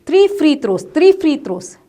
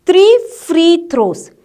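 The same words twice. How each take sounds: First: Quick, back to back; fast repetition. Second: Slow, every word distinct; slow demo. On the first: Teacher showing how fast to say it. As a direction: fire it off fast twice. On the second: Teacher slowly modelling before the fast version. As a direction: lay out each word slowly first. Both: Shown as a demonstration. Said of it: "Like that, fast you have to say".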